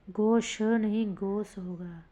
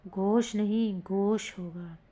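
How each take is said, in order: Both takes have the same delivery.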